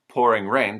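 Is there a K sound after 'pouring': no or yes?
no. 'Pouring' ends without any added K sound.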